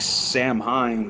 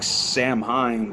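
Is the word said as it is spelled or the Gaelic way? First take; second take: as spelled; as spelled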